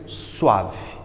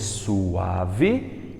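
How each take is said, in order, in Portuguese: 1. O u e o a se fundem em uma única sílaba. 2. O u e o a formam sílabas separadas. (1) "lá eles pronunciam suave, que é um ditongo" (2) "Ao invés de suave"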